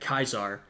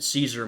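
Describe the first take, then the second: First: The name begins with a hard k sound. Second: The name begins with a soft s sound. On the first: This is closer to the Roman pronunciation. "the C was pronounced as a hard C, a K" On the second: This is how most people say it today. "that's not really how most of us say it today"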